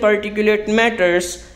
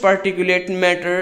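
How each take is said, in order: First: Matter is said with an added final s sound. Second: Matter is said with no final s sound. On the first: The speaker calls it wrong. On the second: The speaker calls it right.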